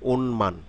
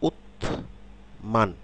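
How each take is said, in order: First: The first syllable ends in an n sound. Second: The first syllable ends in a t sound. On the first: "শব্দে যখন উচ্চারণ করব তখন কি এটি হবে ওনমান" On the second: "এটি উত মান"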